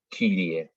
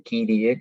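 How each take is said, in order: First: Kyrie, la y dicha como u francesa, labios redondeados; Kyrie con u francesa. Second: Kyrie, la y dicha como una i española; Kyrie con i. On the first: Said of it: "es como una U francesa". (Kyrie pronunciado con u francesa) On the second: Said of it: "o como una I directamente". (Kyrie pronunciado con i española) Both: Shown as a demonstration.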